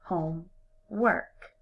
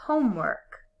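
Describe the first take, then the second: First: Slow, "homework" as two words; split slowly. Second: Said in the usual way. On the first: Shown as a demonstration. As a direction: stretch "homework" into home and work. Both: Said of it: "break it apart into two separate words".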